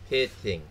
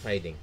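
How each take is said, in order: First: The first vowel sounds like 'it'. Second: The first vowel sounds like 'eye'. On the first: The speaker calls it right. "It's pitting, not hiding" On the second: The speaker calls it wrong. "her wrong pronunciation"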